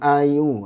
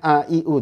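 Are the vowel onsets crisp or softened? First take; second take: softened; crisp. First: Each vowel starts softly without a clear onset. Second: Each vowel starts with a crisp glottal onset. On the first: The speaker calls it wrong. "jangan ... itu jadi tashil" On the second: The speaker calls it right.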